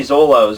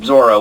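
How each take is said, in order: First: Zolo's said with an L sound, the English dub name; dub's Zolo. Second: Zoro said with an R sound, dropping in pitch; proper Zoro. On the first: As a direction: say Zolo's with a clear L in the middle. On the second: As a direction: correct yourself and say Zoro with a rolled-in R. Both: Shown as a demonstration. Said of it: "or Zoro".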